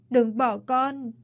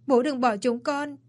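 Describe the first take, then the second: First: Higher, very slow, dragged-out begging; slow broken plea. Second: Higher, begging cry; pleading wail. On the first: Son begging his dead father, slow broken plea. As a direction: draw each word out as the grief breaks. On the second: Son begging his dead father not to leave, pleading wail. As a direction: plead with him through grief. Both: Acted. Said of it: "ôm chầm lấy bố mà gào lên".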